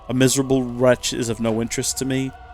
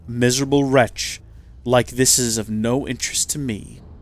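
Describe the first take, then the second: First: It flows without a pause in the middle. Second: There is a pause in the middle.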